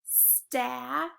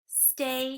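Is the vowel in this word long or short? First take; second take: short; long. First: The vowel is a short a sound. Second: The vowel is a long a sound. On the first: The speaker calls it wrong. "Have you ever heard of the word sta before? That didn't really sound correct" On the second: The speaker calls it right. "I'm going to try the long A sound"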